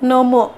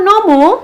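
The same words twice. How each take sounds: First: The word is said softly and gently. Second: The word is said loudly and forcefully. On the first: It is an answer. "উত্তর দেওয়ার বেলায় আমি একটু নরম ভাবে কথা বলছি" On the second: It is a question. "প্রশ্ন করার সময় একটু উচ্চভাবে কথা বলছি, একটু জোরে কথা বলছি"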